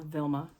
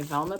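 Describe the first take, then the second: First: "Vilma" with the vowel of "will"; first syllable "Vil", as in "villa"; corrected name. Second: "Velma" with the vowel of "bell"; first syllable "Vel", as in "velvet"; wrong name. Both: Shown as a demonstration. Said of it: "Vilma, not Velma".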